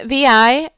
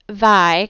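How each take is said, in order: First: It is said as two separate letters. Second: It is said as a single syllable word. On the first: The speaker calls it right. "V I is how you pronounce it" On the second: The speaker calls it wrong. "Don't pronounce it Vi"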